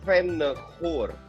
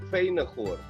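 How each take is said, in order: First: The E vowel is short. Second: The E vowel is somewhat long. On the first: The name is spelled with a double N. "karena N-nya dua, Venegoor" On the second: The name is spelled with a single N. "kalau N-nya satu agak panjang, jadi Venegoor"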